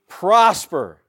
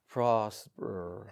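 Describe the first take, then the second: First: The word is said forcefully and with energy. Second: The word is said weakly and flatly. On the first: The speaker calls it right. "That's too important of a word" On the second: The speaker calls it wrong. "You don't say prosper"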